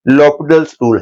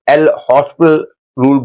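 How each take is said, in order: First: The name is said as 'lopital' without an s. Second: The name is said as 'el hospital' with an s. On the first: The speaker calls it right. "Actually correct pronunciation उसकी लॉपिटल्स rule है" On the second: The speaker calls it wrong. "कई लोग एल हॉस्पिटल rule बोलते हैं"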